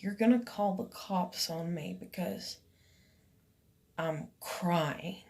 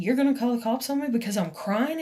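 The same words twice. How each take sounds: First: Soft, halting, lower at the end; quiet disbelief. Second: Quick, rising question; incredulous retort. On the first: Reasoning to herself about the police threat, quiet disbelief. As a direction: think it through under your breath, with pauses. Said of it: "logically, like". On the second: Challenging her over calling the cops, incredulous. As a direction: fire it back as a retold challenge. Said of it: "I said it to her". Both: Retold or imitated.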